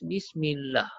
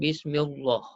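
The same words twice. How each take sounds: First: The L sound is light and thin. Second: The L sound is heavy and thick. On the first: The speaker calls it right. "lam ni kita baca nipis" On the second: The speaker calls it wrong. "Kita tak baca tebal"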